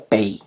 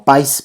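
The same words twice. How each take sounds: First: "pays" dicho "pe-í", sin s; como se pronuncia. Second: "país" con a y s final; como se escribe. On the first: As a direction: di "pays" a la francesa, en dos sílabas. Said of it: "pero se pronuncia pays". (pronuncia "pays" con e y final en i) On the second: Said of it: "se escribe como país". (di "país" a la española) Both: Shown as a demonstration.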